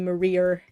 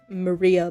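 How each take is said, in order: First: The name ends with an added R sound. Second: The name ends in a plain vowel.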